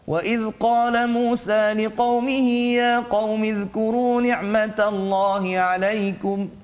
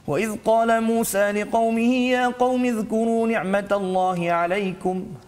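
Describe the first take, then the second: First: It is recited at a fairly fast pace. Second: It is recited very fast, with no melody. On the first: "itu contoh ha, bacaan tadwir" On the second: "bacaan yang paling laju pula dipanggil sebagai al-hadar"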